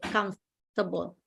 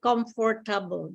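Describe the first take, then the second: First: The word is shortened with syllables dropped. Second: Every syllable of the word is pronounced. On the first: "they only say two syllables" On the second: "it's like every syllable"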